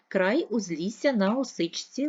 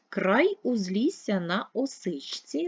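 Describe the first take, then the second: First: It is read at a faster pace. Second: It is read at a slower, ordinary pace. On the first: "Читаємо швидше" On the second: "Читаємо скоромовку"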